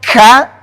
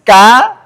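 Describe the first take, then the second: First: The k has a heavy, exaggerated puff of breath. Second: The k has a light, natural puff of breath. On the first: The speaker calls it wrong. "kalau ka terlalu berlebihan" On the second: The speaker calls it right. "Ini sudah ada nafasnya"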